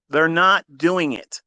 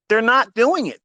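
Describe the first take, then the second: First: Slow, with weight on "not"; slow emphasis. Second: High, loud and fast, punching "doing"; loud insistence. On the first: Repeating to viewers, slowly stressing "not". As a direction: lean hard on "not" and draw it out slowly. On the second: To viewers about course sellers, a loud high denial. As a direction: throw out "They're not doing it" high and loud. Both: Real, not acted.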